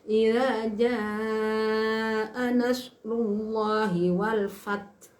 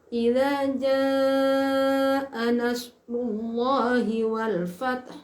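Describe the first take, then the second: The two takes are said the same way.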